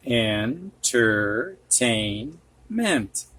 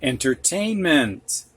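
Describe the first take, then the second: First: Entertainment. stretched syllable by syllable; very slow syllables. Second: Said in the usual way. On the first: Shown as a demonstration. Teacher to students, sounding out the word very slowly. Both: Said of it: "teacher modelling word reading".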